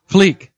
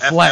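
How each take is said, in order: First: The vowel is a long 'ee' sound. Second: The vowel is a short 'eh' sound. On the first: The speaker calls it right. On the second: The speaker calls it wrong.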